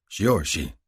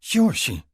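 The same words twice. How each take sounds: First: Said in the usual way. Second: Shiorshi in a much higher woman's voice; her high voice. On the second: A narrator's reading. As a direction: say Shiorshi high, as she does. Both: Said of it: "I echo".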